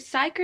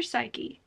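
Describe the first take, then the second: First: Psyche said like "sike"; one-syllable pronunciation. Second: Psyche said "SY-kee"; two-syllable pronunciation. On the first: Vlogger unsure of a character's name, trying Psyche as "sike". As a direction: drop the final e of Psyche, ending on the k. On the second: Vlogger checking a character's name, trying Psyche as "SY-kee". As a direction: sound the final e of Psyche as "ee". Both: Shown as a demonstration. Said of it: "Is it Psyche or Psyche?".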